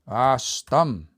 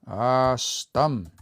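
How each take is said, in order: The two takes are said the same way.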